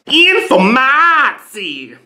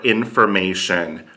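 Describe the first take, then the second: First: "Informatie" loud and high, with a hugely stretched A; mock Dutch pronunciation. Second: Said in the usual way. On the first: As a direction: blare "Informatie" with a long "maaa" and short "tsie". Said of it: "they say it just like that". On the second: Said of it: "the word they have for".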